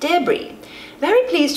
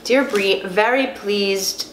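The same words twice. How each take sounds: First: It is read in a put-on British accent. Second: It is read in the speaker's normal accent.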